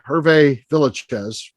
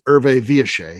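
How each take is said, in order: First: The name is said with English-style pronunciation. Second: The name is said with French-style pronunciation. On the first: This is how most people say it. "most people say" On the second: This is how its owner said it. "I believe he pronounced it"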